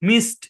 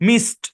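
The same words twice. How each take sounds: No difference in how they are said.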